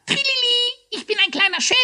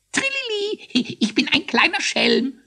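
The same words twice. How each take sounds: First: Very high squawk imitating a cheer; squeaky hare quoting. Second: Very high, squeaky sprite voice; jubilant little ghost. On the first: Hare demonstrates the ghost's joking cry, squawking. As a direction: mimic the ghost's trill, loud and squeaky. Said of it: "ruft er immer". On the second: Little ghost cheers before the court, jubilant. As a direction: trill it out with impish glee. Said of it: "jubilierte der kleine Geist". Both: A narrator's reading.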